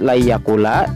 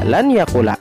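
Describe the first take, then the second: First: The n merges into the following y sound. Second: The n is pronounced separately before the y. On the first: The speaker calls it right. "Membacanya harus la yakula" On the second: The speaker calls it wrong. "tidak boleh dibaca lan yakula"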